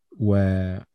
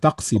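First: وطفسي with a plain f sound instead of q; mispronounced word. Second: طقسي said carefully with the uvular q; corrected pronunciation. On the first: Real, not acted. (وطفسي بنطق الفاء بدل القاف) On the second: Shown as a demonstration. (طقسي بنطق القاف الصحيح) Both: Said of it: "طقسي بقى".

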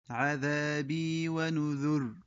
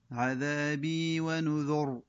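First: ونذر stopped on ر, falling; first option. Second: ونذر stopped on ر, falling; second option. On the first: Teacher gives the first of two ways. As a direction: end ونذر on a firm ر. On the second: Teacher gives the second of two ways. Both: Shown as a demonstration. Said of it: "فيلقن الوجهان".

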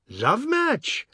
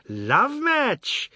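First: Much higher, incredulous whoop; gleeful cry. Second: Much higher gleeful shriek, less a question; mocking shriek. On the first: Ajoda jeering at Biswas's marriage, high gleeful cry. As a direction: shriek it up in gleeful disbelief. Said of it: "Ajoda cried". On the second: Ajoda repeating it to mock Biswas, high shriek. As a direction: shriek the phrase back with relish. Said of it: "Ajoda's chuckles and shrieks". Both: A narrator's reading.

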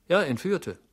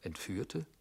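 First: JA pitched high, then ENTFÜHRTE falling; emphatic confirmation. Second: ENTFÜHRTE asked softly with a rising end; questioning echo. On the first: Servant confirming the news to his master, emphatic confirmation. Confirms the word just questioned. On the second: Master questioning his servant's news, questioning echo. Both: Acted.

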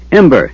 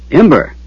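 First: Calling out a name loudly; shouting. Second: Shouting. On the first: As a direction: shout the name across the lair. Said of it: "he shouted". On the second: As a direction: shout the name upward again. Calling the dragon again. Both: A narrator's reading.

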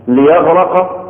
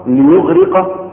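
First: ليغرق with a in the middle: liyeghraqa; liyaghraqa. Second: ليغرق with u then i: liyughriqa. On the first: (ليغرق بفتح الراء) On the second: (ليغرق بضم الياء وكسر الراء) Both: Shown as a demonstration. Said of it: "دي اسمها إيه؟ طريقة النطق".

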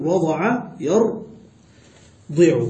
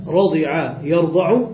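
First: رضع يرضع drawn out as rada'a, yardi'u; fatha then kasra. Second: رضع يرضع slowly as radi'a, yarda'u; kasra then fatha. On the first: Teacher explains the reverse pattern, slow rada'a yardi'u for رضع يرضع. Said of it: "إذا قلنا بفتح الضاد". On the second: Teacher contrasts verb patterns, slow radi'a yarda'u for رضع يرضع. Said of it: "بالعكس يعني". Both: Shown as a demonstration.

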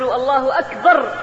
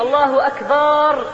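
First: الله أكبر with a short fatha on أكبر, no long alif; short fatha takbir. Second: الله أكبر with the alif of أكبر stretched long, آكبر; drawn-out takbir. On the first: Preacher showing the congregation the correct short أكبر. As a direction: clip the first vowel of أكبر short. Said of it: "بالفتحة وليس بالألف". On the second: Preacher mocking the wrong takbir with a long drawn-out أكبر. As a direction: draw out the first vowel of أكبر. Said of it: "بمد التكبير". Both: Shown as a demonstration.

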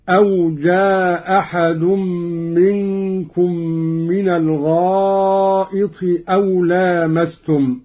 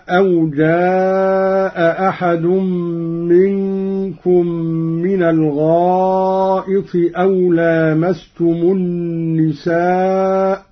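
First: جاء أحد recited as ja-ahad, one hamza dropped, long vowel; Qalun reading. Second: جاء أحد recited with both hamzas; Quran recitation. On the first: Teacher demonstrates Qalun dropping a hamza, with length. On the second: Teacher recites first in the usual reading, both hamzas. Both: Shown as a demonstration. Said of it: "قرأ قالون بإسقاط الهمزة".

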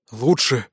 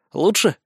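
First: ЛУЧШЕ breathed out with falling tune; exhaled in relief. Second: ЛУЧШЕ higher, with rising questioning tune; checking question. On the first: Wizard answers leader, ЛУЧШЕ sighed out and falling. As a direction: let ЛУЧШЕ drop on an outward breath. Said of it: "выдохнул Спирт". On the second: Leader checks on wizard, ЛУЧШЕ as a raised question. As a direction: ask ЛУЧШЕ, lifting the pitch at the end. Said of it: "уточнил я". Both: A narrator's reading.

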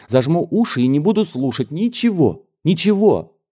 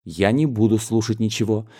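First: Put-on higher, rising into a childish louder cry; stubborn girl refusing to listen, voice climbing; childish outburst. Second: Said in the usual way. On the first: A young cousin refusing to hear gossip, childish defiance. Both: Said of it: "при этой детской выходке".

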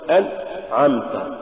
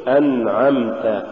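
First: أنعمت broken by a gap after a clipped ن; cut-off noon. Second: Said in the usual way. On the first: Shown as a demonstration. Teacher showing what not to say, noon chopped in أنعمت. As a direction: stop dead after "an" in أنعمت. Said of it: "ولا تقل". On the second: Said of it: "قل".

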